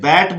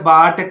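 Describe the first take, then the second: First: The vowel is a flat front 'ae' sound. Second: The vowel is an open 'aa' sound. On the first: The speaker calls it right. "इसे बैट बोलेंगे" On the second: The speaker calls it wrong. "जो कि बिल्कुल गलत है"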